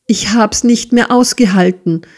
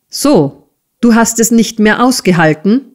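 First: Slightly raised, plaintive confession; weak wail. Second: Fast, raised, incredulous question; grinding menace. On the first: Smike excuses running away, weakly wailing. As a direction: lament it feebly, understated. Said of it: "jammerte Smike mit schwacher Stimme". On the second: Squeers echoes the boy's excuse, menacing question. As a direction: throw it back as an angry question. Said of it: "knirschte Squeers". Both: A narrator's reading.

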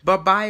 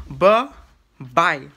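First: Loud, quick bye-bye with a questioning rise; short, loud, tentative imitation of a sign-off; imitating Derek's sign-off. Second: Loud, drawn-out bye-bye split by a pause; exaggerated two-part sign-off, loud and separated; imitating Derek's sign-off. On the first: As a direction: try out his sign-off, rising at the end. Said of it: "say bye like he usually would". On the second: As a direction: punch out each bye slowly, falling at the end. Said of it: "He said".

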